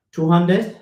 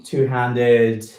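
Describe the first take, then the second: First: Two-handed? rising sharply high and a bit louder, doubtful; questioning two-handed. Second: Said in the usual way. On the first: Real, not acted. Unsure of the exercise name, asking herself out loud.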